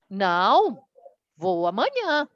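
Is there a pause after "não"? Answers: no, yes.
yes. There is a pause after the first word. He is not going today but will go tomorrow. "Ela uma pausa"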